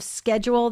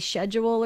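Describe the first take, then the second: First: The word is said in an American way. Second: The word is said in a British way. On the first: "instead of schedule" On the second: "they say schedule"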